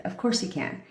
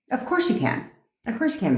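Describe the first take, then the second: First: Said in the usual way. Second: Mock sweet sarcasm, a bit higher; playful fake approval; sarcastic yes. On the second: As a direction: say it sweetly, clearly joking. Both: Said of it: "It was a joke".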